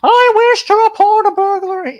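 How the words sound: It is said in a shrill falsetto.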